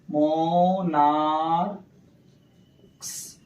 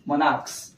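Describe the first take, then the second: First: monarchs stretched very slowly, syllable by syllable; drawn-out sounding out. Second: Said in the usual way. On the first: Shown as a demonstration. Teacher sounding out the plural for students, monarchs greatly stretched. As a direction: draw out monarchs as "moo-naar-ks".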